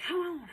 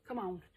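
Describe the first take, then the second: First: Loud, higher push through the last rep; urgent urging. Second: Said in the usual way. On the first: Real, not acted. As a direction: urge yourself on, louder and higher. Urging self through the last reps.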